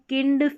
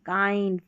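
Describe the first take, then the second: First: The vowel is a short 'i' sound. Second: The vowel is a long 'eye' sound. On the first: The speaker calls it wrong. "इसको किंड फिंड या मिंड नहीं" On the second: The speaker calls it right. "आई को आई पढ़ेंगे"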